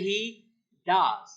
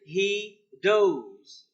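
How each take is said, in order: First: The word 'does' does not rhyme with 'goes'. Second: The word 'does' rhymes with 'goes'. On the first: The speaker calls it right. "but we say he does" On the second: The speaker calls it wrong. "we don't say he does"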